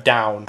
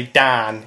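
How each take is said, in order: First: Said in the usual way. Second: DAN with a flat northern vowel in place of "ow". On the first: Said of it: "instead of "down". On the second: Shown as a demonstration. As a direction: say DAN, not DOWN, as in fast Nottinghamshire speech. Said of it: "I'll say "dan" instead of "down".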